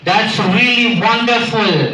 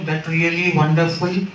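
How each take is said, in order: First: It is said in a lively, enthusiastic voice. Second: It is said in a flat, dull voice. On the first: Something is truly amazing. The speaker calls it right. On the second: The word wonderful carries no real meaning. The speaker calls it wrong.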